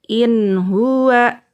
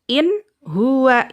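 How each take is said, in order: First: The n sound flows smoothly into the next word. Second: The n sound is cut off before the next word. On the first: The speaker calls it right. "dibaca lanjut aja" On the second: The speaker calls it wrong. "Atau diputuskan"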